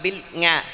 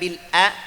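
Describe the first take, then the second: First: An ng sound follows the l. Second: A plain glottal stop follows the l. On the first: "bukan bukan bil nga" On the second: "bukan bil a"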